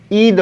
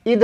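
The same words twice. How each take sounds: First: ईद with a long, held first vowel. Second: ईद with a short, quick first i. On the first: Teacher correcting the spelling for students, long-ī ईद. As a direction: stretch ईद into "eed". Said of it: "ईद होता है". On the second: Teacher showing students the misspelling, short-i ईद. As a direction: clip the first vowel of ईद short, as "id". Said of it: "ईद नहीं होता". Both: Shown as a demonstration.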